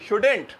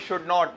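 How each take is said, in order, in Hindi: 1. इसे एक छोटे, संक्षिप्त शब्द की तरह बोला जाता है। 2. इसे दो अलग-अलग पूरे शब्दों की तरह बोला जाता है। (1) "सही है भाई" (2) "हम लोग वही शुड नॉट"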